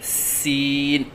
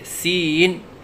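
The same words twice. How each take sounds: First: The word is said at a steady pitch. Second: The word is said with a wavering pitch. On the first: The speaker calls it right. "सही अदायगी है" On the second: The speaker calls it wrong. "लहराव के साथ पढ़ना"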